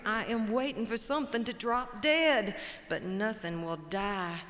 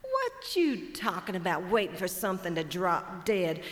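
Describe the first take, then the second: First: Mournful buzzard. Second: Mocking the buzzard's words back at him; incredulous hawk. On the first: Acted. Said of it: "Buzzard says". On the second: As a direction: scoff at the lazy buzzard. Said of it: "Chicken hawk says".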